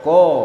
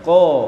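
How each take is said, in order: The two takes are said the same way.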